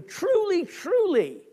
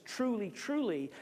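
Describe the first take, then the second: First: Both TRULYs punched, high and loud; raised, forceful "Truly, truly"; very emphatic. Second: Said in the usual way. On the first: Retold or imitated. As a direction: hit "Truly, truly" hard, each falling. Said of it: "he says very emphatically".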